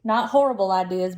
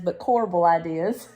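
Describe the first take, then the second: First: "horrible" stressed as the wrong word. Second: "corbel" stressed, said kor-bel. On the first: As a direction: lean on "horrible" to show the mix-up. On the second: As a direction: lean on "corbel" as the right word. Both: Shown as a demonstration.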